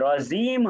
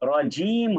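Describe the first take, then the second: First: The middle consonant sounds like z. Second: The middle consonant sounds like j. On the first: The speaker calls it wrong. "রজিম হবে না" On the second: The speaker calls it right. "রজিম হবে। ... বর্গীয় জ"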